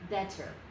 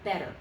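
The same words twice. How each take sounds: First: The middle consonant is a full T sound. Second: The middle consonant is a single quick tap. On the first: The speaker calls it wrong. "say that word with a real T" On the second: The speaker calls it right. "it's one flick of the tongue"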